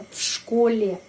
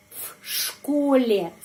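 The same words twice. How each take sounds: First: В школе with в devoiced to f before the sh; voiceless f for в in в школе. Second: В школе said with в as a voiceless f; slow clear в школе, в as f. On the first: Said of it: "pengucapannya V". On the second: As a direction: devoice в in в школе to f, slowly. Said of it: "kenapa pengucapannya F". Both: Shown as a demonstration.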